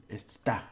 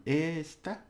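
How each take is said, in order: First: "está" with a quick jab on "tá"; stress on final syllable. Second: "Esta" with a held, high "Es"; stress on first syllable. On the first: Teacher contrasting it is with this, stress on final syllable. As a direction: stab the end of "está". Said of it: "like a little stabbing at the end". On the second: Teacher contrasting this with it is, stress on first syllable. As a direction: hold the "Es" of "Esta". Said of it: "You just hold it a bit". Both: Shown as a demonstration.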